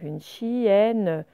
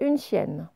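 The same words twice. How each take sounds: First: The phrase is said slowly and carefully. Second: The phrase is said quickly and smoothly.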